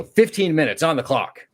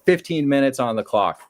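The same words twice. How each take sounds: First: Taunting call-out. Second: Mock taunt again. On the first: Retold or imitated. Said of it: "I just slap it and go". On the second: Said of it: "I just slam his desk again and go".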